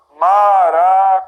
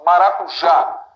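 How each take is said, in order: First: Drawn-out, louder "Maracujá", syllable by syllable; divided into syllables. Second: "Maracujá" run together, then a strong JÁ; stress on last syllable. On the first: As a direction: split "Maracujá" slowly as ma-ra-cu-já. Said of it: "nós vamos dividir aqui". ("Maracujá" dividido em sílabas, devagar) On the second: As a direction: hit the JÁ in "Maracujá", slightly drawn out. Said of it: "Isso aqui é mais forte". ("Maracujá" com força no JÁ) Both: Shown as a demonstration.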